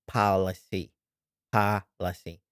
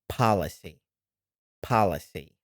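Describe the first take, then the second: Both takes have the same delivery.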